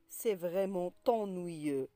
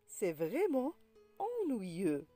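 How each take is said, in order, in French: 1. Un son t lie vraiment à ennuyeux. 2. Aucun son t ne lie vraiment à ennuyeux. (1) "On ne dit pas" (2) "La liaison est interdite"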